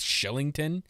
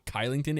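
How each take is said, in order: First: The name begins with an sh sound. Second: The name begins with a hard k sound. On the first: The speaker calls it right. "it's Shillington. The K for whatever reason is pronounced like a C A, uh, S H" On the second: The speaker calls it wrong. "I found out it's not Kylington"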